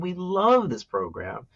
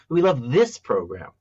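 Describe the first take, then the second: First: The stress falls on the word "love". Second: The stress falls on the word "this". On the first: It is about how they feel about the program. "one is about how we feel" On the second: This program is preferred over a different one. "which makes it sound like compared to a different one"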